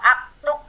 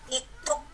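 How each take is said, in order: First: The word begins with an a vowel. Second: The word begins with an i vowel. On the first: "Kalau aktub nanti sama dengan fi'il mudhari" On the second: "Yang dibaca-baca iktub"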